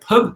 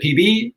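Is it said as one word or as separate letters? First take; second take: one word; separate letters. First: It is said as one short word. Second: It is said as two separate letters. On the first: "Is it like pub" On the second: "or is it P B"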